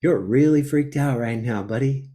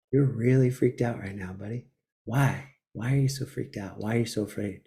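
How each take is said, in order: First: Said in the usual way. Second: Softer, gentle inner voice calming himself; tender self-talk. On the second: Pretend. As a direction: soothe yourself like a kind friend. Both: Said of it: "be like".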